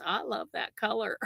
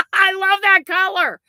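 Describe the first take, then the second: First: Quiet. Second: Gushing. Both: Real, not acted.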